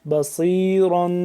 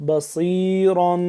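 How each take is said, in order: No difference in how they are said.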